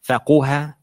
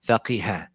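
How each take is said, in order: First: The vowel after the q is u. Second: The vowel after the q is i. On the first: "It can have a dhamma" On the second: "or can have a kasra"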